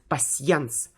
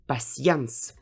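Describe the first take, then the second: First: The vowel is said as two sounds, y-glide first. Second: The vowel is said as two sounds, y-glide first.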